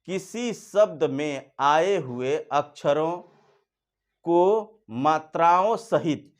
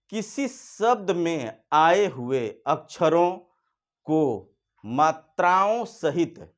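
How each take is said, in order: First: Slow, clearly spaced dictation; slow, deliberate Hindi definition read. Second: Slow dictation. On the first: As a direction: spell each word out slowly for the class. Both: Shown as a demonstration. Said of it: "फिर सुनिए".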